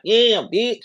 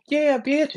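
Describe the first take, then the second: First: "Yeah, bitch" yelped high and a bit louder; mocking girl rapper. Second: High squealy "Yeah, bitch"; imitating a female rapper's high yelp; mocking girl rapper. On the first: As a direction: imitate him sounding like the girls. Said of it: "and you gonna be like". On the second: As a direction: mimic a girl rapper hyping herself. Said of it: "you gonna sound like them hoes".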